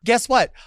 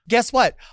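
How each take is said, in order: First: It is said boldly and confidently. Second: The same.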